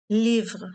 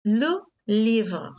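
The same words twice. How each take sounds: First: "Livre" said alone and clearly, the i held; isolated teaching word. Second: Said in the usual way. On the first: Shown as a demonstration. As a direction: model "Livre" for the class, one clean syllable on i. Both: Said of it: "vous trouvez le mot avec le son I".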